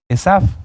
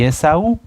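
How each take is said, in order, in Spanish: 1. El nombre tiene su pronunciación hebrea. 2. El nombre tiene su pronunciación española. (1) "Esav es el nombre hebreo" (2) "pero me refiero a Esaú"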